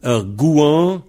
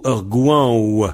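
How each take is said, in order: First: "Un gouan" ending on the nasal vowel; V final muet. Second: "gouan ou" gliding into a final W; V prononcé W. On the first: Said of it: "ou on le prononce pas". (« Un gouan » sans prononcer le V final) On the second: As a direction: add a rounded W ending to "gouan ou". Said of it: "le V, on le prononce W". (« gouan ou » avec le V final prononcé W) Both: Shown as a demonstration.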